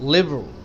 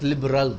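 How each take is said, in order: First: The middle vowel is dropped, giving fewer syllables. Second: Every syllable is fully pronounced as spelled. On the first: The speaker calls it right. "liberal not liberal" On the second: The speaker calls it wrong. "not liberal"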